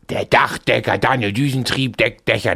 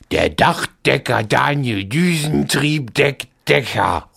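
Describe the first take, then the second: First: It is said very fast. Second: It is said very slowly.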